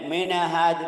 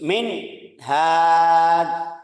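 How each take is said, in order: First: The n bounces into an extra vowel. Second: The sound cuts off briefly after the n. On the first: "ada mantul" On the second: "yang tadi bilang putus"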